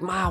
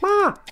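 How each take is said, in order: First: It is said in the speaker's natural adult voice. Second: It is said in a put-on young teenager's voice. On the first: The speaker calls it right. "I probably sounded exactly like this" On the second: The speaker calls it wrong. "I'm gonna speak in your 14, 13 year old voice"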